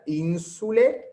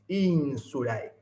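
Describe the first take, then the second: First: The ending is said as a single plain e. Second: The ending is said as a two-part diphthong. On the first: "Si quieren pueden pronunciar insule" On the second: "Recuerden pronunciar ese ditongo ae"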